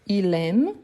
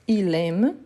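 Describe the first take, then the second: Both takes have the same delivery.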